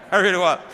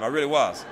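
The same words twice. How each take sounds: First: Louder, punching it home; loud insistence. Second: Laughing through the admission. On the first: Insisting to young people he really was, loud. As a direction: say it again, loud and emphatic. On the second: Telling young people about his fat childhood, laughing. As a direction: chuckle it out, half amused at himself. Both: Real, not acted. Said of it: "fatter and smarter all the time".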